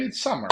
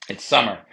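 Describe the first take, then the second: First: Said in the usual way. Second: "It's summer" dropped low and loud, like a movie trailer; deep announcer voice. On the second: Shown as a demonstration. To viewers, a low booming announcer "It's summer". Repeats phrase much lower, louder.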